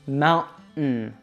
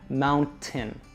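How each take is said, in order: First: The middle T is stopped, air through nose. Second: The middle T is fully released. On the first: "we need to use that stop T sound again" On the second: "with that full T sound"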